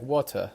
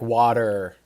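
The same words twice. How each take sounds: First: The R is dropped, British or Australian style. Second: The R is pronounced strongly, American style. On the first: "in the U K or Australia, they would say like water" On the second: "We pronounce our R's very strongly. ... That's how we would say water"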